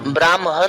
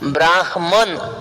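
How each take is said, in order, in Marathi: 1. 'म' हा आवाज 'ह' च्या आधी येतो. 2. 'ह' हा आवाज 'म' च्या आधी येतो. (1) "आपण ब्राह्मण म्हणतो, आपण ब्राह्मण नाही" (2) "त्याच्यानंतर ह आणि त्याच्यानंतर मय"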